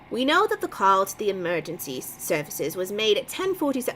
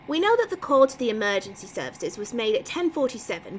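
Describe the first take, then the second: First: It is spoken without an English accent. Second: It is spoken with an English accent.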